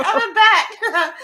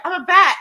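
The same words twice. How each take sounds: First: High, slow, laughing through the words. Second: High, loud, delighted mock squeal; giddy squeal. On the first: Retold or imitated. Girl retelling being a bat, high and slow through laughter. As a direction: let the laugh stretch each word out. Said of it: "I'm like". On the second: Girl hanging upside down in a tree, high giddy squeal. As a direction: squeal it like a gleeful kid. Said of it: "'cause I was like".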